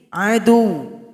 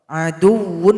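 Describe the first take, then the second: First: It ends on a short, pressed 'u'. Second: It ends with a 'wun' syllable. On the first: The reader stops on this word. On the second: The word is read without stopping.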